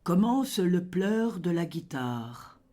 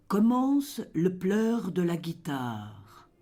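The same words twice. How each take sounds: The two takes are said the same way.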